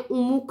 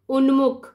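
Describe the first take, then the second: First: No separate n sound comes before the m. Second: A clear n sound comes before the m. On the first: The speaker calls it wrong. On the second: The speaker calls it right.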